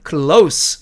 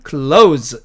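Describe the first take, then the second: First: Close를 형용사처럼 s 소리로 끝내기; adjective close. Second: Close를 동사처럼 z 소리로 끝내기; verb close. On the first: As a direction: close 끝소리를 스로, 클로스. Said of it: "이렇게 발음을 하고". (형용사 close, 스 발음) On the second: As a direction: close 끝소리를 즈로, 클로즈. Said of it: "이렇게 발음한다는 뜻입니다". (동사 close, 즈 발음) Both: Shown as a demonstration.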